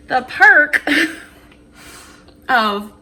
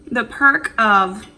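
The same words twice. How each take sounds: First: Laughing through the words; giggling between words. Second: Talking while chewing; words round a bite of food; mouth full. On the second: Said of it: "I'm eating with my mouth open". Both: Real, not acted.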